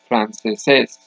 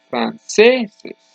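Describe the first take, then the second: First: The stress is on the last syllable. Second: The stress is on the next-to-last syllable. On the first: The speaker calls it wrong. "I do not say franceses. The word franceses doesn't exist" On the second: The speaker calls it right. "The word is franceses. The last syllable is not the loudest, it's the next to last syllable"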